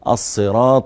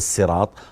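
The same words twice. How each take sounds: First: The word starts with an emphatic s sound. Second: The word starts with a plain s sound. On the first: The speaker calls it right. "بالصاد" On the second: The speaker calls it wrong. "وليس بالسين، ليس الصراط"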